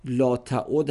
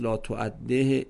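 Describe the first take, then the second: First: تعد read slowly with the last letter unvowelled; silent ending. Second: تعده read slowly with a final -e; alternative ending. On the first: Teacher showing the sukun ending, slowly. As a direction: stop dead on the final d of تعد. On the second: Teacher listing possible endings of the verb, slowly. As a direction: try تعده with the ending voiced. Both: Shown as a demonstration. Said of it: "آخرش ساکنه".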